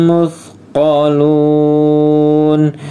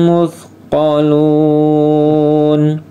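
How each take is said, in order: Both takes have the same delivery.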